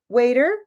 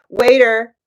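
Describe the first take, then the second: First: It is said in a soft, polite tone. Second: It is said in a blunt, rude tone. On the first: The speaker calls it right. "It sounds more polite" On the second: The speaker calls it wrong. "If you say"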